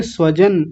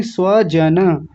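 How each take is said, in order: First: "स्वजन" quick, ending on n; mistaken dropped vowel. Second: "स्वजन" slow, as swa-ja-na; full final vowel. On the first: Teacher imitating students' error, no final a in "स्वजन". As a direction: say "स्वजन" as swa-jan. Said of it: "कई लोग बोल रहे थे". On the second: Teacher correcting students, slow full-vowel "स्वजन". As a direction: draw out each a in "स्वजन". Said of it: "स्वजन नहीं". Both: Shown as a demonstration.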